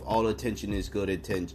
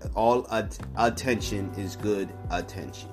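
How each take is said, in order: First: The phrase is spoken at a quick pace. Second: The phrase is spoken at a slow pace. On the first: "I know I speak quickly sometimes" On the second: "I had to say that slowly"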